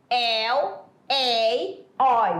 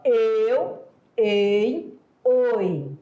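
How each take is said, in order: First: The diphthongs are said with open vowels. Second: The diphthongs are said with closed vowels. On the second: "fechado, o ditongo é fechado"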